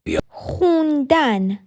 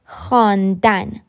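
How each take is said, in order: First: The first vowel is an oo sound. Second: The first vowel is an aa sound. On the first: This is the everyday spoken form. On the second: This is the standard written form.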